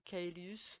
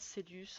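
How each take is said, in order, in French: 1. Ce nom se prononce à la latine. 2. Ce nom se prononce à la française. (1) "en latin" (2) "en français"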